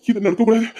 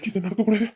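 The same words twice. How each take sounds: First: Said in the usual way. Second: "நடக்கக்கூடாது" dropped to a soft murmur; quiet repeat. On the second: Acted. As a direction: say it again much softer, to yourself. Repeats the line to himself. (மெதுவாக தனக்குள் சொல்லுதல்)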